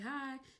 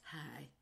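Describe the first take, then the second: First: It is said in a friendly, warm way. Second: It is said in a cold, snooty way.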